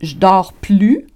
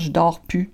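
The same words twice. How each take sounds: First: The words are pronounced fully and carefully. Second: The words are reduced and run together. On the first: This is the less common way to say it. "on va moins dire ça" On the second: This is the usual everyday way to say it. "On va beaucoup plus souvent dire"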